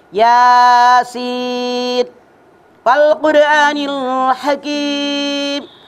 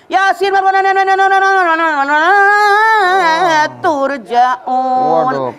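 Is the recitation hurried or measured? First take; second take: measured; hurried. First: The words are recited slowly and clearly. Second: The words are rushed and run together. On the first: The speaker calls it right. "Itu baru tartil" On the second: The speaker calls it wrong. "Itu salah"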